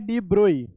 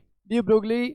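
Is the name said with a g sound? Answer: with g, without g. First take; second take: without g; with g. First: The name ends like 'broy', without a g. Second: The name ends like 'broglee', with a g. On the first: This is the proper pronunciation of the name. "जिन्हें pronounce किया जाता है डी ब्रोई" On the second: This is the spelling-based form used here. "हम यहाँ पे अभी डी ब्रोगली pronounce करेंगे"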